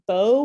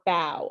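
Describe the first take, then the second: First: The vowel sounds like 'oh'. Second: The vowel sounds like 'ow'.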